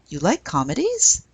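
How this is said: It is said with question intonation. It asks whether the listener likes comedies. "If we add a question mark, it becomes, ... Exact same sentence, different intonation"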